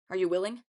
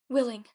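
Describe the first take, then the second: First: Said in the usual way. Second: Higher, louder one-word echo. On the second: A narrator's reading. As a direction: repeat it back pitched up. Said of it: "Echo said".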